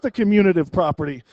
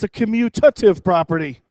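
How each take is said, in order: First: The word is said with an extra n sound. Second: The word is said without any n sound. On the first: The speaker calls it wrong. "It's not the commutative property" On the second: The speaker calls it right. "There's no N in that word"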